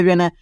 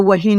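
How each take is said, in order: First: वेन as one beat, "ven"; correct reading. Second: वही as "wa-hin", h sounded; letter-by-letter misreading. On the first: Teacher giving the right reading, वेन as "ven". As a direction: say वेन with silent h. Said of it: "आपको क्या पढ़ना है?". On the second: Teacher showing what not to read, वही as "wa-hin". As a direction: misread when as two-beat "wa-hin". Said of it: "आपको वही नहीं पढ़ना". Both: Shown as a demonstration.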